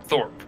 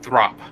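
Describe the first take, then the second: First: "Thorpe" with the r after the vowel; "Thorpe", one syllable ending in rp; mistaken pronunciation. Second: "Throp" with r straight after th; "Throp", r before a short open vowel; corrected pronunciation. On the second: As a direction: say "Throp" as THROP, rhyming with drop. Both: Shown as a demonstration. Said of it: "It's pronounced Throp".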